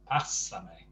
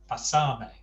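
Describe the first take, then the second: First: The stress is on the first syllable. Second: The stress is on the second syllable.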